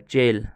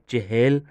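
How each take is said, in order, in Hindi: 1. यह शब्द छोटा करके कहा जाता है, एक अक्षर। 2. यह शब्द पूरा कहा जाता है, दो अक्षर। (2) "चहल नहीं बोला"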